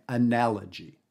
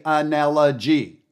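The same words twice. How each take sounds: First: Analogy with the stress on the second syllable, na; Analogy said with its usual shape, middle syllable stressed; natural stress on analogy. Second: Analogy with every syllable equally weighted, no stress; analogy flattened out with no shape; flat analogy. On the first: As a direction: shape Analogy the way people really speak, na standing out. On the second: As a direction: say analogy robot-flat, all syllables the same. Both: Shown as a demonstration. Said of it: "I didn't pronounce all those syllables the same".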